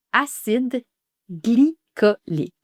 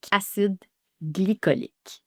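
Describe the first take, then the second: First: "acide glycolique" split, slow "gly-co-lique"; syllable by syllable. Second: "Acide glycolique" said cleanly in two parts; "Acide glycolique" for students to copy; model pronunciation. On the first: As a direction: pause before glycolique then say it slowly. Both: Shown as a demonstration. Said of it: "Alors, on dit".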